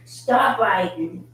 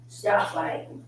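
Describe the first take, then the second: First: Slow, firm "Stop biting"; firm command. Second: Said in the usual way. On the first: Real, not acted.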